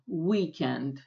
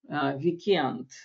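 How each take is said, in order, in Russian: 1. Ударение на первом слоге. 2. Ударение на последнем слоге. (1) "по-английски ударение должно быть в начале" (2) "переиначиваем с ударением в конце"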